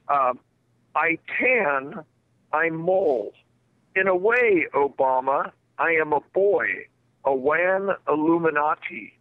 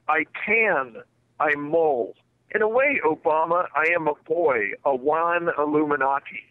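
First: It is said slowly with careful enunciation. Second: It is said at a normal, quicker pace.

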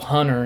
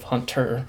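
First: The middle T sound is dropped. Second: The middle T sound is clearly pronounced. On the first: The speaker calls it wrong. "people call you Hunter instead of" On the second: The speaker calls it right. "I'm pretty sure it's Hunter, because there's a T"

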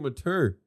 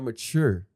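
First: The word is said with a clear t sound. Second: The word is said without a clear t sound. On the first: The speaker calls it wrong. "They say mature with a T" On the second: The speaker calls it right. "not mature"

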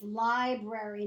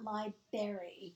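First: The first r sound is pronounced. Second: The first r sound is dropped. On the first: The speaker calls it right. "it is library" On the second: The speaker calls it wrong. "not library"

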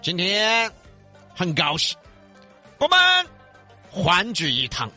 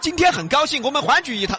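First: It is broken up with slow, leader-like pauses. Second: It is said smoothly in one single breath.

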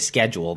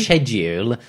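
First: The word begins with a 'sk' sound. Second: The word begins with a 'sh' sound. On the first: The speaker sounds American. "If I say schedule, then I'm American" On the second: The speaker sounds British. "if I say schedule, then I'm British"

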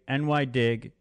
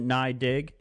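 First: NY is said as two separate letters. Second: NY is said as one syllable, nye. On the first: The speaker calls it right. "It's New York Dig, NY Dig" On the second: The speaker calls it wrong. "anyone who calls it Nye Dig, you're on my shit list"

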